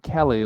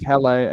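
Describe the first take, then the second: First: It sounds like the common name Kelly. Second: It does not sound like the name Kelly. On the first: The speaker calls it wrong. "not Kelly like the name that so many Survivor players have" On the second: The speaker calls it right. "Kele and not Kelly"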